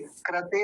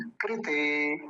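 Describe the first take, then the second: First: कृते mispronounced as "krate"; faulty "kra-te" for कृते; wrong ra vowel. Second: कृते said "krite", with ri after the k; careful, drawn-out "kri-te"; correct ri vowel. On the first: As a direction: put an "a" after the r in कृते. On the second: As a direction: say कृते slowly with a clear "kri". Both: Shown as a demonstration. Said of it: "कृते नहीं".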